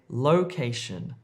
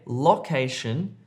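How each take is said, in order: First: The o is a long gliding oh vowel. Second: The o is a short vowel, as in hop. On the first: The speaker calls it right. "if you're trying to say location" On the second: The speaker calls it wrong. "Don't say location"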